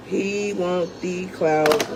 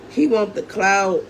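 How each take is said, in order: First: Slow and drawn out. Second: Said in the usual way. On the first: Real, not acted. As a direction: stretch every word of He want the clout, disgusted.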